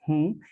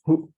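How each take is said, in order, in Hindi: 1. स्वर दीर्घ और अनुनासिक है। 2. स्वर ह्रस्व है और अनुनासिक नहीं है। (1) "बड़ा ऊ की मात्रा आएगी और चंद्र बिंदु आएगी" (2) "इसका मतलब होता है हु"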